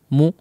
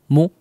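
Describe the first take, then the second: The two takes are said the same way.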